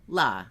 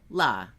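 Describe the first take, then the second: First: The two parts merge into one syllable. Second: The two parts merge into one syllable.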